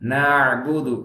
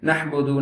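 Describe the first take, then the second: First: The middle consonant is a flowing throaty ain. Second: The middle consonant is a cut-off h sound. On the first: The speaker calls it right. "நஅபுது நஅபுது அப்படி சொல்லணும்" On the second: The speaker calls it wrong. "நஹ்புது நஹ்புதுன்னு சொல்றதெல்லாம் வந்து ஏத்துக்கவே முடியாத மிஸ்டேக்"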